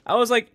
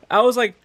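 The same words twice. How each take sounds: The two takes are said the same way.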